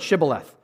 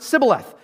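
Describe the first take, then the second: First: The word begins with an sh sound. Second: The word begins with an s sound. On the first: "Pronounce this word" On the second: "they could not pronounce the H in Shibboleth. They pronounced it Sibboleth"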